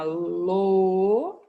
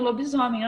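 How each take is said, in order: First: "lobisomem" drawn out slowly and louder, lo-bi-so-mem, each syllable apart. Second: Said in the usual way. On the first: Shown as a demonstration. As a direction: stretch out "lobisomem" syllable by syllable to show how long it is. ("lobisomem" devagar, sílaba por sílaba, mais alto) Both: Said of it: "olha só que palavrona grandona".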